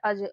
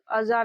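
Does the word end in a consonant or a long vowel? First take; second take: consonant; long vowel. First: The word ends on the consonant j. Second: The word ends with a long aa vowel. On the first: The speaker calls it right. "इसको हम लोग पढ़ रहे हैं अज" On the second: The speaker calls it wrong. "अजा नहीं पढ़ रहे हैं"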